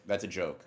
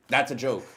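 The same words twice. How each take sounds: First: Said in the usual way. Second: Louder, higher quick disclaimer; emphatic disclaimer. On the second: Real, not acted. Streamer hastily telling official watchers it's a joke, loud. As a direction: say it fast and loud to cover yourself. Backpedalling after cam rip offer.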